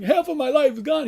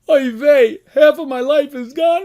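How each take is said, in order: First: Higher, whining lament; mock crying. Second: Loud, high, hammed-up lament; mock wailing. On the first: Rabbi retelling the sage's cry to God, mock whine. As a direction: whimper it like a man losing years. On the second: Rabbi acting out the sage's lament to God, mock wailing. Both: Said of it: "He starts crying".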